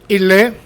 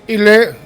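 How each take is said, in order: Both takes have the same delivery.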